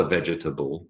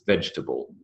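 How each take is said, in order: First: "vegetable" in four syllables, VEJ-E-TA-BLE; over-full vegetable. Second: "vegetable" said as VEJ-ta-ble; elided three-syllable vegetable. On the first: Lecturer showing the form to avoid, four-syllable "vegetable". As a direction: voice the middle E in "vegetable". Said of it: "it is not a". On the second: Lecturer correcting students' syllable count, three-syllable "vegetable". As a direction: drop the middle E of "vegetable": VEJ-tuh-bul. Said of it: "Vegetable is three syllables". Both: Shown as a demonstration.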